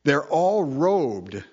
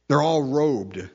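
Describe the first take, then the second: First: Slow and drawn out. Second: Said in the usual way. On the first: Acted. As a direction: stretch out they're all robed, slowly. Repeated phrase, first one drawn out.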